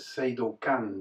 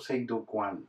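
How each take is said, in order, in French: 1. La dernière syllabe se prononce simplement 'kan'. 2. La dernière syllabe se prononce avec un 'w', 'kwan'. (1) "il prononçait pas Seido-Kan" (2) "mais il prononçait toujours Seido-Kwan"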